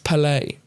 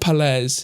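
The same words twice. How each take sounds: First: The name sounds French, rhyming with ballet. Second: The name is said in a plain English way. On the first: The speaker calls it right. "So almost like it's French" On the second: The speaker calls it wrong. "But it's not Palais"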